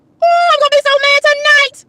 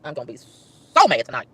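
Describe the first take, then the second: First: Worked-up high cry of frustration; exasperated outburst. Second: Slow, low-pitched grumble; brooding, drawn-out low mutter of anger; low seething. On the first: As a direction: wail it high, working yourself up. Venting, escalating repeats of one line. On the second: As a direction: sink down low and stew on it slowly. Same line repeated, sinking to a grumble. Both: Real, not acted.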